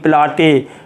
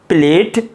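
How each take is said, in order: First: It has an 'ah' vowel and an extra final syllable. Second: It has an 'ay' vowel and a single syllable. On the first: The speaker calls it wrong. "नहीं तो आप पढ़ लेंगे प्लाटे, ऐसे नहीं" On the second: The speaker calls it right. "तो ये क्या हो गया स्टेट, प्लेट"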